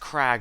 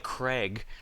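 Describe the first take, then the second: First: The vowel sounds like the one in 'cat'. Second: The vowel sounds like the one in 'came'. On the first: The speaker calls it right. "it's Crag Linon, like the stone or a cliff" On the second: The speaker calls it wrong. "I keep thinking his name is actually Craig"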